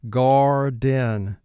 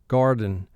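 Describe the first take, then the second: First: The second syllable's vowel is clear and exaggerated. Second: The second syllable's vowel is reduced and natural.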